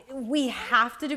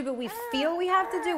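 First: "have" emphasized, setting up a contrast; stress on HAVE. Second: "feel" lifted high for contrast; stress on FEEL. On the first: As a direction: lean on "have" as real obligation. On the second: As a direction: hit "feel" with a jump in pitch. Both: Real, not acted. Contrasts obligation with feeling obliged.

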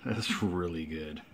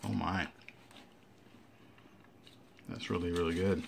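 First: Said in the usual way. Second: Talking with a mouth full; chewing while talking. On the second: Real, not acted. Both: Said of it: "Shouldn't talk from my mouth full".

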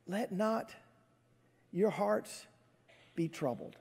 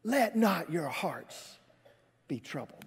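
First: Soft, tender, with pauses between phrases; gentle reassurance. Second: Slow, pointed reproof, falling away at the end; chastising. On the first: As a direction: say it softly, without any reproach. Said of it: "but he doesn't. He just says". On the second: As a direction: draw it out as a stern admonition. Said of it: "I would have kind of chastised him". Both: Acted.

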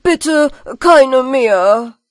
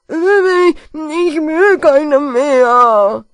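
First: Slow, loud, clear „keine“ stressed. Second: Very slow, loud mumbled wail, „will“ slurred to /veix/; pitiful mumbled cry. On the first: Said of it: "ganz laut und klar". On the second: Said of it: "schrie kläglich der Nuschelpeter". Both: Acted.

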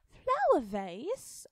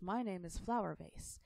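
First: High, slow astonished question; surprised. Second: Said in the usual way. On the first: A narrator's reading. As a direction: gasp it out in disbelief. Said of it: "Alice was surprised".

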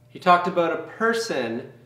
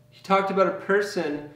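No difference in how they are said.

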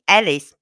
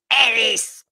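First: Said in the usual way. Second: Higher, sharper call of the name; imitated Brummy shout. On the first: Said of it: "he didn't answer her the first time". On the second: Granddaughter calling a second time after no answer, mock Brummy shout. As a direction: mimic a little girl yelling in Brummy. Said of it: "shouted at him".

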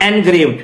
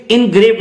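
First: "engraved" opening on en; wrong EN-graved. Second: "engraved" opening on a short i; IN-graved. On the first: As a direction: say "engraved" as en-grayvd. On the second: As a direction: say "engraved" as in-grayvd. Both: Shown as a demonstration. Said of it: "not engraved".

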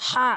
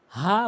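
First: "হা" with a strong h from mid-throat; correct throat h. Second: "হা" with a plain light h; wrong h. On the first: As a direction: push the h of "হা" from the middle of the throat. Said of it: "হা সঠিক উচ্চারণ". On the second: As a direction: say "হা" with an ordinary h, not from mid-throat. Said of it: "হা ভুল উচ্চারণ". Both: Shown as a demonstration.

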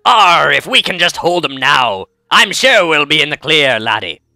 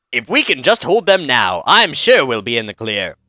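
First: Slow, drawn-out pirate with a growled arr. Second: Said in the usual way. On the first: Shown as a demonstration. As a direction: do a hammy pirate, stretching the words. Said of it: "That's my pirate voice". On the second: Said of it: "I should actually be doing a pirate voice".

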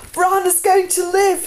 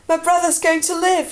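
First: High, loud, drawn-out whoop of joy. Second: High, elated outburst; joyful announcement. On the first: Jon spinning Tyrion around with good news, jubilant whoop. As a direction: shout it out, overjoyed. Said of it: "he whooped". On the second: Jon telling the guards his brother will survive, elated and high. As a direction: burst out with great news. Jon runs down with good news. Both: A narrator's reading.

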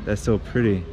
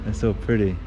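No difference in how they are said.

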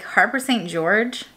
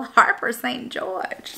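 First: Said in the usual way. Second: Put-on drawn-out, softer regal accent on "Harper Saint George"; regal mock accent. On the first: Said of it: "not in that accent, but, like". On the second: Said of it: "not in that accent".

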